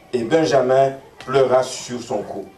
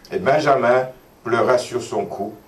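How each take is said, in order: The two takes are said the same way.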